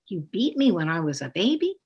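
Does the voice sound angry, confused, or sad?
confused. It is said in a confused tone. The child is confused about it. "or confusion?"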